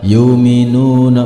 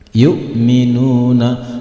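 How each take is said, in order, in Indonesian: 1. Suku kata pertama menyambung halus ke berikutnya. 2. Suku kata pertama dipotong tiba-tiba. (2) "cara membacanya dipatahkan"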